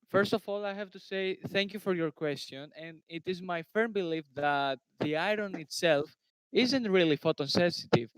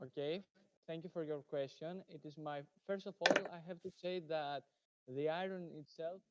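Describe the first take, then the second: First: Raised, projected voice; firm, louder answer with punched words; speaking louder. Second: Too quiet. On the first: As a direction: speak up so they can hear you. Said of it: "speak louder". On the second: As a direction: answer softly, barely projecting. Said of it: "can you please, uh, speak louder". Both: Real, not acted.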